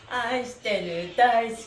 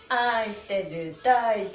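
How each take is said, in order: Both takes have the same delivery.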